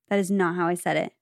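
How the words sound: It is said in a calm, even way.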